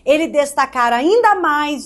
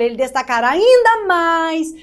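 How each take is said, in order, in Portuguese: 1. Fala de forma neutra, sem variação. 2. As sílabas tônicas saem bem mais fortes.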